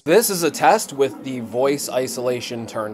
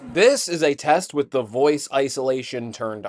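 First: Background noise is heard along with the voice. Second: Background noise is removed, leaving only the voice. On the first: "with the voice isolation turned off" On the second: "with the voice isolation turned on"

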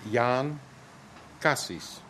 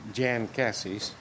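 First: The name is said with its native pronunciation. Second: The name is said with an American pronunciation. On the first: This is how the name owner says it. The speaker calls it right. "but it's" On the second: This is how outsiders say the name. The speaker calls it wrong. "Americans would say I'm"

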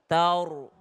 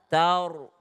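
The two takes are said the same way.

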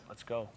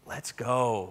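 First: It sounds calm, quietly before the game starts. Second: It sounds excited, like after a good play.

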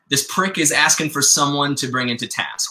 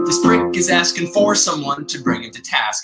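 First: The word 'for' is said without stress. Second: The word 'for' is said with strong stress. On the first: The speaker calls it right. "Jefferson says" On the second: The speaker calls it wrong. "What often happens is a Jefferson might go, ... and to really emphasize for"

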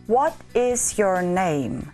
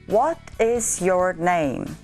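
Both takes have the same delivery.

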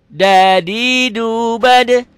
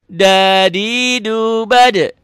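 Both takes have the same delivery.

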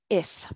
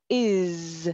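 First: The word ends in a voiceless S sound. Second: The word ends in a voiced Z sound. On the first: The speaker calls it wrong. "No is, no" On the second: The speaker calls it right. "is pronounced is with a Z sound, expresado, is, tus cuerdas vibran"

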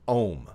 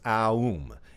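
First: The word is said as one short syllable. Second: The word is drawn out into three syllables. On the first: It stands for stepping into awareness and perception. "they're pronounced differently" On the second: It stands for the beginning, middle and end of everything. "It's that three-syllable pronunciation of Om"

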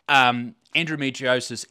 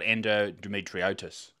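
First: The word ends with an s sound before -is. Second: The word ends with a t sound before -is. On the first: The speaker calls it right. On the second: The speaker calls it wrong.

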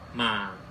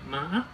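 First: The pitch starts low and falls lower. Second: The pitch rises with a break in the voice. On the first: "下降符号，跟三声很像" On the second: "一个波浪状符号，它就念妈"

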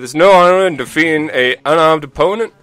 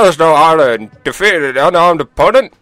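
First: It is said in the speaker's ordinary voice. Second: It is said in a put-on old man voice. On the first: The speaker calls it wrong. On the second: The speaker calls it right.

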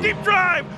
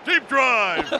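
First: The voice is pitched higher. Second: The voice is pitched deeper. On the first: The speaker calls it wrong. "maybe a little deeper" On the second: The speaker calls it right. "Not bad deep"

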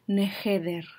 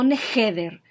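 First: The h is a soft breath, like a sigh. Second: The h is a harsh sound from the throat. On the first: The speaker calls it right. "la h, la pronunciación en hebreo, es como un suspiro" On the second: The speaker calls it wrong. "no neheder"

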